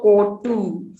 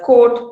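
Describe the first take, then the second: First: "coat" ending in an extra u, "coattu"; added final vowel. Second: Said in the usual way. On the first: Shown as a demonstration. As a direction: add a vowel after the t of "coat". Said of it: "here is the vowel sound". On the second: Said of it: "usually after a final consonant".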